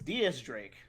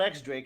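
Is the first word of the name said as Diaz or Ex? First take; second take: Diaz; Ex. First: The first word is said as two syllables, Diaz. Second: The first word is said as the letter name. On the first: The speaker calls it right. "it's D S Drake" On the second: The speaker calls it wrong. "it's not X Drake"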